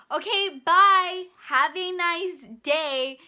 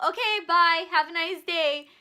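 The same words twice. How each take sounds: First: Slow, much louder, higher goodbye; yelled mock goodbye. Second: Higher and louder fake-cheerful farewell; dismissive goodbye. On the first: Cashier shouts goodbye over customer, slow and loud. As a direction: drag it out over her yelling. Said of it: "She's yelling". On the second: Cashier dismisses yelling customer, bright and loud. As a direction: brush her off cheerfully. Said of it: "all I'm saying".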